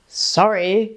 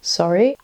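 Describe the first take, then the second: First: It sounds curt and passive-aggressive. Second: It sounds inquiring, like a question. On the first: The speaker is annoyed but hides it. "the passive aggressive sorry" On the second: The speaker is asking what was said. "an acquisitive one"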